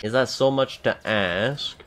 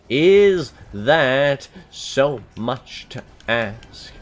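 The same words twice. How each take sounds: First: Said in the usual way. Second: Mock pleading, slowed right down; drawn-out plea. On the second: Shown as a demonstration. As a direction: drag out every word of Is that so much to ask.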